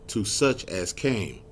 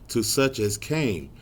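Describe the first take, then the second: Both takes have the same delivery.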